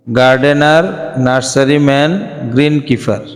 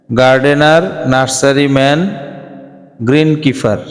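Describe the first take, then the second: No difference in how they are said.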